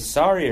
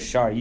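First: The word begins with a plain s sound. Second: The word begins with a sh sound. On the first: This is the American pronunciation. The speaker calls it wrong. "That's American pronunciation" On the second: This is the pronunciation used in the family's own language. The speaker calls it right. "You sounded like you said shari before with an H"

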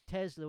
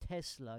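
First: The middle consonant is a buzzing z sound. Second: The middle consonant is a hissing s sound. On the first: The speaker calls it right. "It's Tesla with a Z" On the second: The speaker calls it wrong. "People say that wrong. They say"

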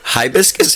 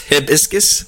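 First: The first syllable sounds like 'high'. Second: The first syllable sounds like 'hip'. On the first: "High or hip?" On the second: "High or hip?"

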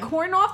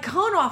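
First: The first word has an r sound. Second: The first word has no r sound. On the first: The speaker calls it wrong. "I just thought it was your Jersey accent" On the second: The speaker calls it right. "it's cone off"

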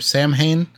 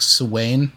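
First: The word is said with an English-style pronunciation. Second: The word is said with a Gaelic pronunciation.

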